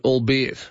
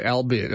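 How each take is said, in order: First: "albeit" starting with "all", as all-be-it; proper pronunciation. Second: "albeit" starting with "al", as in Albert; mispronunciation to avoid. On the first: Host reading a listener's word query, properly pronounced "albeit". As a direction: say "albeit" with an "awl" first syllable. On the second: Host reading a listener's warning, mispronounced "albeit". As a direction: say "albeit" with a short-a "al" first syllable. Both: Retold or imitated. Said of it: "Don't say albeit".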